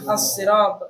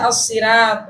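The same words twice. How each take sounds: First: The r sound is heavy and thick. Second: The r sound is light and thin. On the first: The speaker calls it right. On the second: The speaker calls it wrong. "tidak dibaca"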